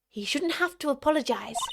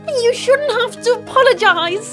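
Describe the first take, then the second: First: It is said in the speaker's normal voice. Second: It is said in a young Edgeworth voice.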